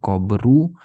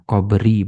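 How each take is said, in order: First: The word ends with a u vowel. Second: The word ends with an i vowel. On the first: The speaker calls it wrong. "bukan qabru" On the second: The speaker calls it right.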